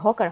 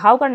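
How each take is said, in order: First: The first vowel sounds like 'aw' in 'saw'. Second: The first vowel sounds like 'ow' in 'how'. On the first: The speaker calls it right. "এটা কিন্তু হকার" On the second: The speaker calls it wrong. "এটা কিন্তু হাউকার না"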